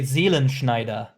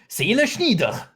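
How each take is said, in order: First: It is said in standard German pronunciation. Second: It is said with a throaty Swiss German sound. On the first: "if it's correct, you would say" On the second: "Seelenschneider in Swiss German would be"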